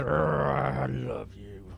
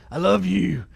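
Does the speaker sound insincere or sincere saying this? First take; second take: insincere; sincere. First: It is said flatly, without feeling. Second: It is said warmly and with feeling. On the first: The speaker does not mean it. The speaker calls it wrong. "it didn't sound like you meant it when you said" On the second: The speaker means it. The speaker calls it right. "You could have said"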